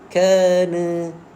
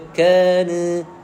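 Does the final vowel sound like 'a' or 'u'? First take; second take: a; a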